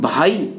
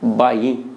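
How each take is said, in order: First: Standard Hindi accent, plain aspirated first sound. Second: Haryanvi accent, changed forceful first sound. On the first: "यहां पे हमने उच्चारण किया" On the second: "लेकिन वहां उच्चारण क्या है"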